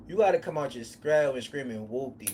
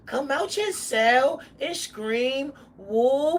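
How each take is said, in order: First: Said in the usual way. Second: Higher, slow, sing-song mocking; teasing Allie in a stretched voice. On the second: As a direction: drag it out like teasing a friend. Repeats the advice as a mock performance.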